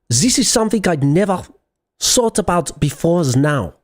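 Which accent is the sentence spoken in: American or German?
German. It is spoken with a German accent. "How about German?"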